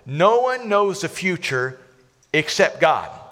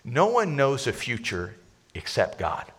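First: It is said at a louder volume. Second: It is said at a normal volume.

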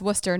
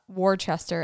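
First: It is said in a short, reduced form. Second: It is said fully, the way it is spelled. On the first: The speaker calls it right. "which is pronounced Worcester" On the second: The speaker calls it wrong. "not Worcester, as it looks like it should"

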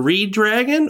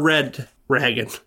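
First: It sounds like the words reed dragon. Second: It sounds like the words red ragged. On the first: This is a literal reading of the spelling. "It's either Reed Dragon or Red Ragged" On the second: This is another literal reading of the spelling. "It's either Reed Dragon or Red Ragged"

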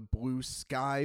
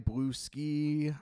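First: The second word rhymes with 'high'. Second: The second word rhymes with 'see'. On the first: "I'll go with both this time" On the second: "I'll go with both this time"

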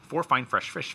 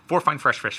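First: It is said at a normal speed. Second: It is said faster, more quickly.

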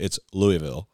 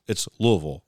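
First: It is said the southeastern Illinois way. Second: It is said the way Louisville locals say it.

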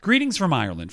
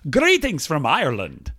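First: It is said in the speaker's normal accent. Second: It is said in a put-on Irish accent. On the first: "I'm not going to do that anymore" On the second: "do you want to hear my Irish accent?"

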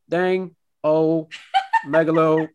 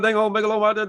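First: It is said slowly in Boomhauer's voice. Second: It is said fast in Boomhauer's voice.

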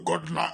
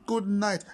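First: The voice is harsh and frightening. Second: The voice is soft and gentle. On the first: The wife ends up scaring her husband. The speaker calls it wrong. "But with this voice, how will you send a man to bed like this?" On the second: A loving wife soothes her husband to sleep. The speaker calls it right. "Ladies are supposed to be romantic"

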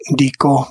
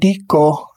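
First: The tone stays level at mid. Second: The tone goes from high to mid. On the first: The grinding is future or possible. "Dico, mid-mid" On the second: The grinding is ongoing or habitual. "in the imperfective aspect, que dico, high mid"

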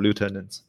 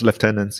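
First: The first syllable sounds like 'loo'. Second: The first syllable sounds like 'left'. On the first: The speaker calls it wrong. "instead of lieutenants" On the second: The speaker calls it right. "use Commonwealth English and pronounce it as lieutenants"

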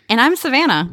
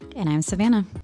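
First: It is said loudly, with lots of energy. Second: It is said quietly, with little energy.

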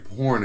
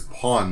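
First: The r sound after the vowel is pronounced. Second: The r sound after the vowel is dropped.

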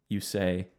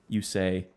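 No difference in how they are said.

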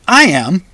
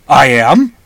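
First: It is said in a neutral, unemphatic way. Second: It is said insistently, as if protesting doubt.

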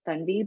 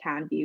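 First: The name is said with its native pronunciation. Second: The name is said with an anglicized pronunciation. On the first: This is the standard form parents use. "the correct pronunciation of my name is actually like Thunvi" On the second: This is how people in the British system said it. "everyone would call me Tanvi"

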